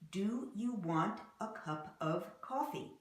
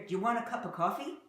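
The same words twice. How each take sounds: First: Each word is said separately and fully. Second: The words are reduced and run together. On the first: This is how the sentence is written. "But do Americans really pronounce it like this? Not really" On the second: This is how Americans really say it. "You're going to hear"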